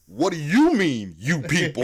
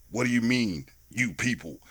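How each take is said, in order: First: Louder, with YOU in "what do you mean" punched; retold indignant comeback. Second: Understated challenge, usual pitch; retold Downey line. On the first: Chino challenging Downey's "you people", indignant stress on the first YOU. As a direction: throw the question back, hitting the first YOU hard. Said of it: "then Chino goes". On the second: Downey questioning Ben Stiller over "you people", understated challenge. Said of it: "Robert Downey Junior goes".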